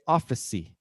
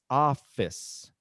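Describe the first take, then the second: First: An extra vowel sound is added after the final consonant. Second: The word ends cleanly on the final consonant sound. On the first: The speaker calls it wrong. "a lot of people say" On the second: The speaker calls it right. "it's office"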